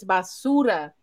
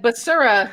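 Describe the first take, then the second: First: "basura" as "bah-SOO-rah", with tapped R; correct pronunciation. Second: "Basura" as "buh-sur-uh", with an American R; mangled pronunciation. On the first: Correcting the supervisor, "basura" said the Spanish way. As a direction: say "basura" with crisp Spanish vowels. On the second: Mimicking the supervisor's attempt, "Basura" in flattened English sounds. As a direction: imitate someone failing at Spanish "Basura". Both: Retold or imitated. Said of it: "he could not say it".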